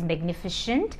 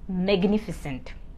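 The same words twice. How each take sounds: First: The consonant before -ent sounds like 'sh'. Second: The consonant before -ent sounds like 's'. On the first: The speaker calls it wrong. "It is not pronounced as magnificent" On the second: The speaker calls it right. "it is pronounced as magnificent"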